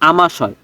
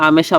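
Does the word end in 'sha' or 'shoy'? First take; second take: shoy; sha. First: The word ends with a 'shoy' sound. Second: The word ends with a plain 'sha' sound. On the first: The speaker calls it right. "এটাকে বলে আমাশয়।" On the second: The speaker calls it wrong. "দিদি এটাকে তো আমেশা বলে না।"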